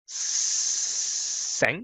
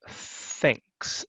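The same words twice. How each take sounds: First: The word begins with a hissing s sound. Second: The word begins with a soft th sound. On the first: The speaker calls it wrong. "so it's not thanks" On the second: The speaker calls it right. "It's thanks"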